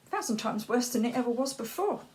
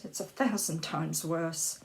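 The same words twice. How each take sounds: First: Thousand pushed up, faster and a bit higher; intensified repeat. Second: Said in the usual way. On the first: Acted. Repeating how much worse it got, with thousand stressed. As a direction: hit thousand and rush the rest.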